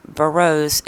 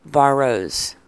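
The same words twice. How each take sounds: First: Barrows with a weak first syllable, buh-ROSE; wrong name pronunciation. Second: Barrows with a clear open first vowel, BAR-rose; corrected name pronunciation. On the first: Host showing the name as criticised by viewer, mispronounced. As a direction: say Barrows with the first vowel swallowed. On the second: Host reading viewer's correction, right pronunciation. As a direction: say Barrows with a full "bar" at the front. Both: Shown as a demonstration. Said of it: "Pronunciate that right".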